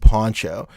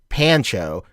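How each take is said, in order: First: The first vowel sounds like 'o' in pond. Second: The first vowel sounds like 'a' in pan. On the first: The speaker calls it right. "It's pronounced pronounced Poncho" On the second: The speaker calls it wrong. "it's not pronounced like Pancho"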